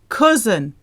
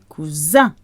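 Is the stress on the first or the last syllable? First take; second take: first; last. First: The stress is on the first syllable. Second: The stress is on the last syllable. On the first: This is the English way to say it. "We say cousin" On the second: This is the French way to say it. "The French say cousin. ... stress the end of the word rather than the beginning"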